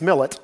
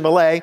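First: It is said with a local American pronunciation. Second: It is said with a French pronunciation. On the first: "the Cleveland pronunciation of this is Jean Francis Millet" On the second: "we'll go with the French version"

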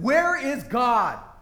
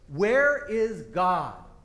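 First: It is asked angrily, as if losing control. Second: It is asked in a firmer, sterner tone.

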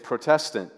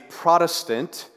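First: It is said like 'protest' plus 'ant'. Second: It is said the usual modern way. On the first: It means one who protests. "because really it's Protestant" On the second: This is how the word is commonly said now. "now we've pronounced that different today"

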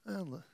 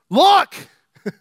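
First: It is said flatly, without enthusiasm. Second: It is said with excited, emphatic energy. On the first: This is nothing special. The speaker calls it wrong. "It's not" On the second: This is something amazing worth noticing. The speaker calls it right. "Let me change the inflection. I think God was like"

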